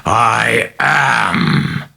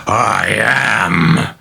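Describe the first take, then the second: First: Higher, massive demon boom; booming roar. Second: Higher booming demon roar; possessed girl bellows at the priest, booming; bellowed. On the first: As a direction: let it crackle off the walls. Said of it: "terrifying voice boomed crackling off the walls". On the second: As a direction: hurl it at the priest in rage. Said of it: "Regan bellowed with a sudden jerk forward". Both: Acted.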